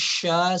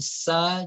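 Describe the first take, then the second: First: It begins with a hushing sh sound. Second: It begins with a plain s sound. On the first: The speaker calls it right. "tapi sya seperti kita uh, mengusir uh, ayam" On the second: The speaker calls it wrong. "jangan sa"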